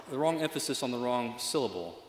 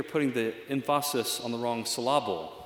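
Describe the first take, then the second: First: Said in the usual way. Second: "emphasis" as em-FAH-sis, "syllable" as sil-LAH-ble; wrong-syllable stress. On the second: Shown as a demonstration. Preacher jokes about a church's motto, "emphasis" and "syllable" stressed on their middle syllables.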